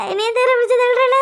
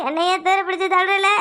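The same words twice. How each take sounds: First: Higher and louder anguished repeat; louder wail. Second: Said in the usual way. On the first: Acted. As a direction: raise the complaint into a cry.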